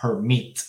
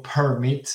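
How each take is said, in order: First: "permit" stressed on MIT; per-MIT, first syllable left weak; stress on second syllable. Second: "permit" stressed on PER; PER-mit, second syllable left weak; wrong stress, first syllable. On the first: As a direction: say "permit" with the weight on the last syllable. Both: Shown as a demonstration. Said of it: "está cayendo el acento en la segunda sílaba".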